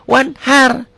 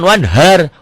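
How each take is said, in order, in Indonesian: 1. H itu bunyi yang tegang dan berat dari tenggorokan. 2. H itu hembusan napas yang ringan dan biasa.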